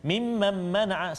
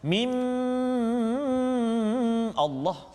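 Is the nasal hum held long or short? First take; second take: short; long. First: It is read fast with a clipped nasal hum. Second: The nasal hum is drawn out far too long. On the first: The nasal hum is shortened below its proper length. "baca laju, ... salah" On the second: The nasal hum is stretched beyond its proper length. "lama sangat ... bukan setakat dua harakat"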